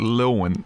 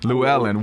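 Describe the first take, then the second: First: The name is said in a shortened, clipped form. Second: The name is said in its full, longer form. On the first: The speaker calls it wrong. "I've always called it Lilwyn" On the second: The speaker calls it right. "the correct pronunciation"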